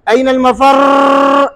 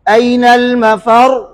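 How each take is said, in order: First: The final r is trilled with many strong rolls. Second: The final r has only a slight, natural trill. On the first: The speaker calls it wrong. "ऐसे पढ़ते हैं, वो रिक्शा चलाते हैं" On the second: The speaker calls it right. "ये ये सिफ्त है"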